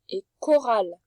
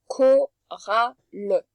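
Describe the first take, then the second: First: Said in the usual way. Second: Chorale stretched extremely slowly, each sound held. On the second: Shown as a demonstration. (chorale, très très lentement, son par son)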